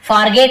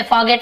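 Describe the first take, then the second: First: "forget" with a sounded R; R pronounced. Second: "forget" with a silent R. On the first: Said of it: "ऐसे नहीं बोलते". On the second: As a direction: say "forget" as "faw-get", dropping the R. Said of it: "थोड़ा आर silent होता है". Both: Shown as a demonstration.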